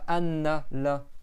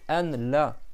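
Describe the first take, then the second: First: The n is doubled and held longer. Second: The n is short and single. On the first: The speaker calls it wrong. "c'est pas anna la" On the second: The speaker calls it right. "c'est ashhadu an la"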